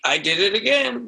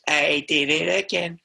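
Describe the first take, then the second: First: It is said in the speaker's normal voice. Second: It is said in a put-on singer imitation voice.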